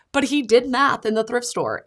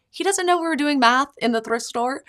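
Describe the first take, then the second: First: "he" stressed, falling to the end; "he did math" with weight on "he". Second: "know" lifted high with a rising tune; "doesn't know" rising, set against what he did; stress on know. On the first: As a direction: punch "he" and let the line fall. Contrast: doesn't know vs did. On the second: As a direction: lean up on "know". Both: Real, not acted.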